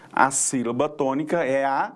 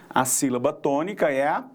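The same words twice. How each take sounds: The two takes are said the same way.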